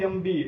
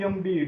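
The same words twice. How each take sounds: The two takes are said the same way.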